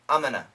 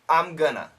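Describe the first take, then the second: First: It is reduced and said a bit faster. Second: Going to is reduced to gonna. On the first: "A little bit faster and very common" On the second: "The most common pronunciation"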